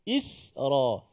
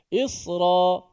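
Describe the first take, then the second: First: The s sound is light and thin. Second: The s sound is heavy and thick. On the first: The speaker calls it right. "Nipiskan sin dulu" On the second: The speaker calls it wrong. "jangan kita sebut Isra"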